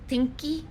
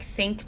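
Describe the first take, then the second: First: It starts with T and ends in an added vowel. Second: It starts with TH and ends in K.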